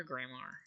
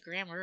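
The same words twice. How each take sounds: First: "grammar" with a full "-ar" ending; spelling pronunciation. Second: Said in the usual way. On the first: Shown as a demonstration. Learner checking the spelling of a word, spelling pronunciation. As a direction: sound out the second vowel of "grammar" as "mar". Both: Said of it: "is it grammar or grammar".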